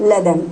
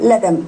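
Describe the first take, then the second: Both takes have the same delivery.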